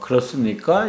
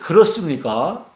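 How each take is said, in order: First: It is said in a calm, neutral tone. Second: It is said in a sharp, challenging tone. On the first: A sincere question. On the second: The speaker is challenging the other person.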